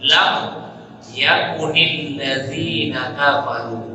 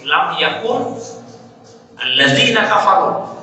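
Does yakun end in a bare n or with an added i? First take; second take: added i; bare n. First: Yakun takes an added i vowel, linking onward. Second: Yakun ends in a bare n before alladzina. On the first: The speaker calls it right. "Maka kita baca seperti apa?" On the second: The speaker calls it wrong. "Sebetulnya asalnya itu bunyinya begini"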